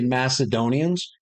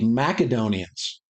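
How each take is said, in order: First: The c is said as an s sound. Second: The c is said as a k sound. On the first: This is how most people say it. "Most people say Macedonians" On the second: This is how a favorite historian says it. "Mac with a K, like the sound"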